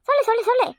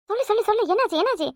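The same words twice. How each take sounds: First: "சொல்லு, சொல்லு, சொல்லு" pushed higher and faster; urgent insisting. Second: Eager coaxing. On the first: Mother impatiently demanding the news, higher and urgent. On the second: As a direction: coax "சொல்லு" gently, keen to hear. Mother pressing for news. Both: Acted.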